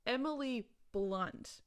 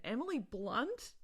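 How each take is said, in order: First: "Emily Blunt" drawn out slowly, word by word; slow emphatic repeat. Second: "Emily Blunt" with a rising question tune; questioning name check. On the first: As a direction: stretch both words of "Emily Blunt" for emphasis. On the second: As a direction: float "Emily Blunt" as a do-you-know-her question. Name checked, then repeated for emphasis. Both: Real, not acted.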